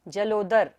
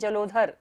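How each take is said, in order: First: The middle consonant is a plain unaspirated d. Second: The middle consonant is an aspirated dh sound. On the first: The speaker calls it right. "यहाँ पर धा नहीं है, द है ये" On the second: The speaker calls it wrong. "कई लोग इसको क्या पढ़ते हैं जलोधर"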